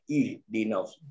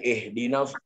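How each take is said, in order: First: The first vowel is a close 'ih' sound. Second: The first vowel is an open 'eh' sound. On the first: The speaker calls it right. "Tapi dibaca dengan ih di nafs" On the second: The speaker calls it wrong. "Tak boleh eh di nafs"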